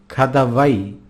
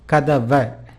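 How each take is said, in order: First: The word ends in an 'ai' sound. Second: The word ends in a plain 'a' sound. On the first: It is the formal written form. "as in formal usage" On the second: It is the everyday spoken form. "I'll pronounce it as kadava"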